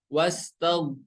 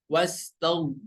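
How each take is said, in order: No difference in how they are said.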